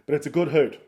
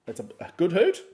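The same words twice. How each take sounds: First: Said in the usual way. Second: High rising question on "hoot". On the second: Real, not acted. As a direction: query your own word "hoot", pitched up and loud. Questions own wording.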